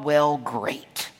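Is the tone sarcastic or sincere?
sarcastic. It sounds sarcastic and annoyed.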